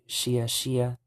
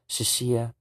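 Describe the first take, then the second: First: Both words are said fully and evenly. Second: The first word is clipped like a stutter. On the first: The speaker calls it wrong. "you wouldn't say Shia Shia" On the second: The speaker calls it right. "kind of like you're stuttering a little bit"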